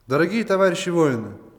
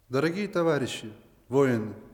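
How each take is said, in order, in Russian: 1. Произносится громче, четче и празднично. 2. Произносится ровным, более тихим голосом.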